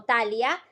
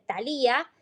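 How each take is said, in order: First: Thalia said "TA-lia", stressed on the first a; stress on first syllable. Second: Thalía said "ta-LI-a", stressed on the í; stress on second syllable. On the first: Co-host offering the other reading of the name, Thalia as "TA-lia". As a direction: stress the opening TA in Thalia, slower. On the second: Co-host giving the princess's name, Thalía as "ta-LI-a". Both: Shown as a demonstration. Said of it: "eh, o Thalia".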